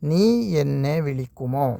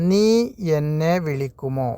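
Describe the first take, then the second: No difference in how they are said.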